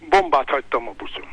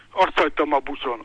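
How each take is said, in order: First: Bombát punched as the key word, falling; stress on bombát. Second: Said in the usual way. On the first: Retold or imitated. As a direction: give in and hit "Bombát" firmly. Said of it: "Tudja mit?". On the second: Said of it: "Elvesztettem a fonalat".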